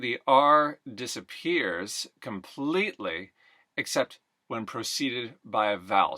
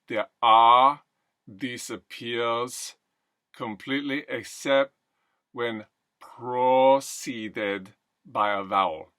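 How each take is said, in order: First: The R sounds are pronounced normally. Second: The R sounds are dropped.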